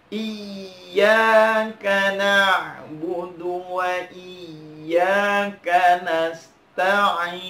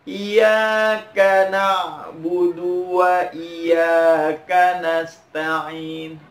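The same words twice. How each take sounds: First: IYYAKA chanted very slowly, dwelling on the doubled y; pressed double y. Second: IYYAKA chanted with a light single y; wrong unstressed reading. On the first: Teacher models correct recitation, pressed slow chant. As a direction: recite with a firm, held "iyy" in each Iyyaka. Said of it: "tekan bacanya". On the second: Teacher imitates many people's mistake, light y in chant. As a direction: recite "Iyyaka" loosely, without pressing the double y. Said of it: "Ini salah". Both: Shown as a demonstration.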